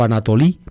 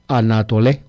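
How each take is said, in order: First: The final vowel sounds like 'ee'. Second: The final vowel sounds like 'eh'. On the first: This is how modern Greeks pronounce it. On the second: This is the older Greek pronunciation.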